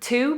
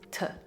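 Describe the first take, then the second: First: The word has a full, clear vowel. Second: The vowel is reduced to a short schwa.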